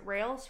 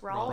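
First: The word rhymes with 'males'. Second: The word rhymes with 'malls'. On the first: The speaker calls it wrong. "I always mispronounce it" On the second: The speaker calls it right. "It should be R-A-L-L-S, not R-A-L-E-S"

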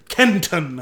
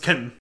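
First: The t in the middle is clearly pronounced. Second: The t in the middle is slurred away. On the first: "you have to really enunciate the Kenton" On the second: "Otherwise, it's Kenton"

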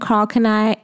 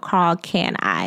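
First: The surname does not sound like 'can I'. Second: The surname sounds like the words 'can I'. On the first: The speaker calls it wrong. "I like saying Carl Kanai. It rolls off my tongue better" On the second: The speaker calls it right. "But it's pronounced Can I. So Carl Can I"

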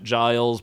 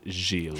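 First: The name is said the English way. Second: The name is said the French way. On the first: "I think British people would pronounce it Giles" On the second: "it's also a very French name, and they would call it Gilles"

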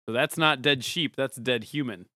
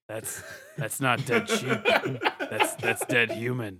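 First: It is said in an ordinary speaking voice. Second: It is said in a deep, gravelly voice.

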